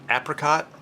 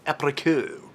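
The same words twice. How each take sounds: First: The word is said with an English accent. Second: The word is said with a French accent.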